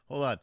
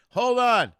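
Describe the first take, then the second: First: Said in the usual way. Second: High, loud hold on; loud call. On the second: Real, not acted. Audio dropped, calling to Jeff.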